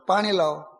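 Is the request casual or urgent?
urgent. It is said urgently, with real need.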